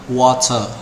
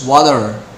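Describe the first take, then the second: First: It is said in a British accent. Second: It is said in an American accent.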